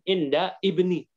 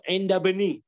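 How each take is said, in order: First: A glottal stop separates the two words. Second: The words run together without a glottal stop. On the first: The speaker calls it wrong. "jangan inda ibni" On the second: The speaker calls it right. "Dibaca ya inda bani"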